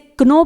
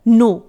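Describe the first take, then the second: First: The word starts with a k sound. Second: The word starts without a k sound. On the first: The speaker calls it wrong. "इसे क्नो pronounce नहीं किया जाएगा, वो गलत हो जाएगा" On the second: The speaker calls it right. "के silent रहेगा"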